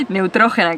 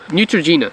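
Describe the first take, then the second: First: NEUTROGENA as "neh-oo-TRO-heh-na"; Spanish pronunciation. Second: NEUTROGENA as "new-truh-JEE-nuh"; English pronunciation. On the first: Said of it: "That's how you say it". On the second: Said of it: "I'm gonna say it in English". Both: Shown as a demonstration.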